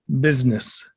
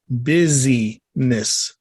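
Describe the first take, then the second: First: The word is said run together as usual. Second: The word is said broken into separate parts.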